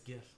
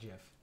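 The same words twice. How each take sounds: First: The word begins with a hard G sound. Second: The word begins with a J sound. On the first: The speaker calls it right. "it's GIF" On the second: The speaker calls it wrong. "not GIF. It's not a peanut butter"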